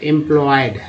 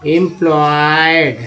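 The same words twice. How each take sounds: First: Said in the usual way. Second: employed slowly, with a long held ploy; drawn-out demonstration. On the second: Shown as a demonstration. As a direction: stretch employed out part by part. (Employed को खींचकर, धीरे) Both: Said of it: "इम भी एक part है".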